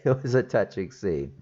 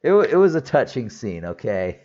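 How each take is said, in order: First: Said in the usual way. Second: Protest, half-laughing, that it really was touching; defensive insistence. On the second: Real, not acted.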